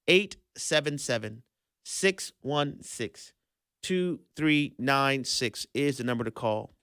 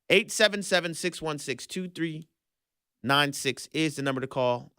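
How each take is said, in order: First: It is said at a slower pace. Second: It is said at a faster pace.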